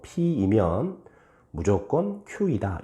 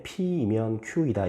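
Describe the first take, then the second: First: Deliberate model reading featuring 무조건; stress on 무조건. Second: Said in the usual way. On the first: Shown as a demonstration. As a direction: pause before 무조건, then set it out clearly. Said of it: "이렇게 읽어보란 말이야". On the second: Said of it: "이렇게 읽지 말고".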